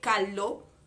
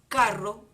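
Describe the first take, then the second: First: The middle consonant is an L sound. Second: The middle consonant is a trilled R. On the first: The speaker lacks the sounds of the language. "nos iba a decir calo" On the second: The speaker has the sounds of the language. "los niños repetían carro"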